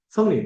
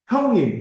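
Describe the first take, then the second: First: The word begins with an s sound. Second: The word begins with an h sound. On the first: "성님 이거 맞나요?" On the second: "형님 이게 안 되고"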